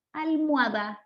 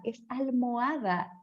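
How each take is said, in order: First: "almohada" as almwada, oh glides to w; colloquial almohada. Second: "almohada" slow, every vowel separate, al-mo-a-da; careful almohada. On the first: Teacher giving the everyday pronunciation. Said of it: "el que no dice almohada". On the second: Teacher modelling the correct form for actors. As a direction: say "almohada" slowly, with o and a apart. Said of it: "no podemos decir almohada". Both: Shown as a demonstration.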